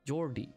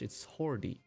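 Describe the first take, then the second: First: The name starts with an English J sound. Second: The name starts with an H sound.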